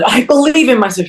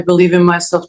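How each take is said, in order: First: It is said with strong feeling. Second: It is said flatly, without feeling.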